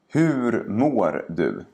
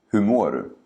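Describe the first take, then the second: First: The sentence is spoken slowly and carefully. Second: The sentence is spoken quickly and naturally. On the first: "first say each sentence slowly" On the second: "and then faster, like a native speaker would"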